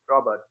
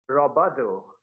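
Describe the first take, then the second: First: The word ends on the final consonant. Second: An extra vowel follows the final consonant.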